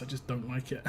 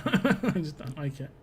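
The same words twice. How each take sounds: First: Said in the usual way. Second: Slow, laughing through the words; chuckling as he repeats himself. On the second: Real, not acted. Streamer laughing off his dislike of bad accents.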